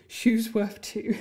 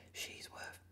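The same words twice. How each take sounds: First: "shoes worth two" slow and deliberate, "shoes" stressed; corrected "shoes worth two", slow with weight on "shoes"; corrected word. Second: "She's worth" whispered, with the vowel of "she"; the wrong word, whispered under the breath; slip of the tongue. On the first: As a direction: say the right word carefully and slowly. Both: Shown as a demonstration. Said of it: "not she".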